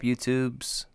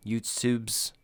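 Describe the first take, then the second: First: Said in the usual way. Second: Hushed, voiceless echo of "YouTubes"; whispered. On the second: Real, not acted. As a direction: whisper "YouTubes" like a playful aside. Repeats the word for comic effect.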